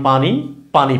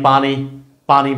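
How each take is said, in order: No difference in how they are said.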